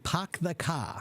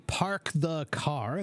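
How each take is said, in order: First: The r is dropped, with a broad British-like vowel. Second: The r after the vowels is clearly pronounced. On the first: "they say" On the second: "they don't say"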